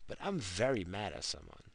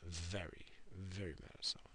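First: Said in the usual way. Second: Very mad at someone, whispered much softer; half-joking whispered grudge. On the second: Shown as a demonstration. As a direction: drop to a hush as if sharing a secret. Repeats it in a whisper.

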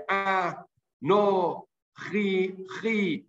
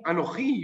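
First: "Ah, no, chi" broken into separate, drawn-out syllables. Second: Said in the usual way. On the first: Shown as a demonstration. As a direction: sound out "Ah, no, chi" piece by piece, pausing after each. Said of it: "he can pronounce each letter". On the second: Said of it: "doesn't read in the normal way".

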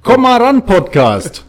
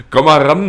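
First: High, loud jingle call; show title call. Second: Laughing, loud repeat of the title; laughing echo. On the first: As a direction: belt out the podcast name. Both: Pretend.

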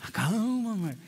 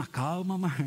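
First: Firm commanding take. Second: Tentative testing take. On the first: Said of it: "Assim, que voz é essa?". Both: Shown as a demonstration.

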